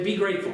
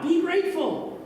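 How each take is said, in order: First: Said in the usual way. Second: High, emphatic sermon punchline; hammed-up pulpit slogan; mock preachy line. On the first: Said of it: "whatever you do when you go out today". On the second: Shown as a demonstration. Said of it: "I could just make it up right now".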